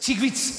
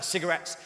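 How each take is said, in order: First: The vowels vanish and it sounds clipped. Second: All the vowels are fully pronounced.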